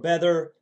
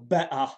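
First: It is said in an American accent. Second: It is said in a Cockney accent. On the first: "as some Americans would say" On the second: "as Cockney speakers would say"

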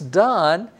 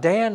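First: The vowel is an open 'ah' as in father. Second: The vowel is a front 'a' as in cat. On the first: The speaker calls it right. "that A is pronounced like the A in father" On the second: The speaker calls it wrong. "it's not Dan"

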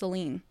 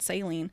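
First: It sounds different from the word in saline solution. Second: It sounds like the word in saline solution. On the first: The speaker calls it right. "It's saline" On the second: The speaker calls it wrong. "I always call it saline, like saline solution. Like this isn't saline"

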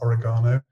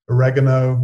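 First: It is said in the British pronunciation. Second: It is said in a non-British pronunciation.

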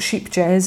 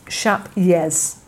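First: The name sounds like sheep jazz. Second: The name sounds like shap yez. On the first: The speaker calls it wrong. "it's not sheep jazz" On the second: The speaker calls it right. "So the J is a Y, and rather than sheep, it's more like shap"

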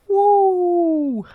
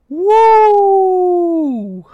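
First: It is shouted more softly. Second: It is shouted very loudly.

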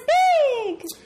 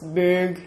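First: The word is said in a light, ordinary voice. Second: The word is said in a deep, gravelly voice. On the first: The speaker calls it wrong. "You can't be like" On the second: The speaker calls it right. "we have to say it in a gravelly or at least deep voice"

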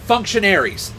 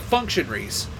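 First: The ending is said fully as 'airy'. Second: The ending is clipped to a short 'ree' sound. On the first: The speaker calls it right. "I pronounced it in the proper context in which it's supposed to be pronounced" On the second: The speaker calls it wrong. "Instead of saying airy, I'll say re, because that's just how my accent wants to say it"

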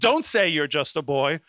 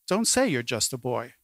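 First: It is said in a harsh, scolding tone. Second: It is said in a gentle, kindly tone. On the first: The speaker is rebuking the listener. "God can be scolding Jeremiah and saying" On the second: The speaker is reassuring the listener. "you can read it as a kindly, compassionate"

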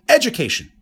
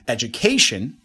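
First: The stress falls on the first syllable. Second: The stress falls on the third syllable. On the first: The speaker calls it wrong. "In the first case, I put the stress on the first syllable" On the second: The speaker calls it right. "Number three"

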